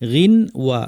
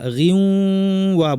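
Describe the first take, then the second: First: The n is pronounced clearly before the w. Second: The n merges into a nasal w sound. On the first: "গিন তারপরে ওয়া" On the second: "গিউ ওয়া বলতে হবে"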